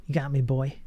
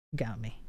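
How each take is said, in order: First: Playful mock defeat. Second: Said in the usual way. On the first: Conceding a point to chat, playful put-on voice. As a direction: throw it back at chat with a grin.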